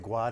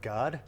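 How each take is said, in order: First: It is said with a Brazilian Portuguese accent. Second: It is said with an Australian English accent.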